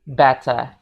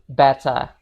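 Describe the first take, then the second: First: The final R is silent. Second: The final R is silent.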